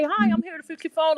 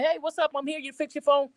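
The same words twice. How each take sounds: First: Higher, polite technician greeting; a light, formal repairwoman hello; polite service voice. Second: Higher, relaxed street-style hello; casual street greeting. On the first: Repairwoman greeting customer at door, polite and formal. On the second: Repairwoman greeting customer at door, casual street style. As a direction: loose and friendly, like a neighbor. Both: Retold or imitated. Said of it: "if I say".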